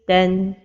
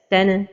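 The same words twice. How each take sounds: First: The syllable ends smoothly without any bounce. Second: The syllable ends with a bouncing echo release. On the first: The speaker calls it right. "the right pronunciation is ten" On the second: The speaker calls it wrong. "give qalqala at the end of pronunciation"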